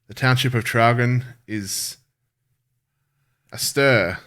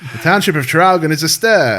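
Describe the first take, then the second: First: It is read in an ordinary speaking voice. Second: It is read in an old-timey radio announcer voice.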